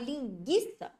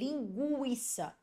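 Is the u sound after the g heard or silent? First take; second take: silent; heard. First: The u after the g is silent. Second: The u after the g is pronounced. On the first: The speaker calls it wrong. "Eu não falei linguiça para sumir o som do U" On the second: The speaker calls it right. "eu falei linguiça"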